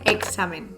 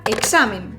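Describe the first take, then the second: First: "examen" with x softened to g-s; lower, casual "examen", x as gs; relaxed pronunciation. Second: "examen" said with a full k-s for the x; careful, emphatic "examen", x as ks; emphatic pronunciation. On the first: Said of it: "pronunciación más relajada suena como una G". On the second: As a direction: stress a crisp K-S in "examen". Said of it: "si es con una pronunciación enfática". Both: Shown as a demonstration.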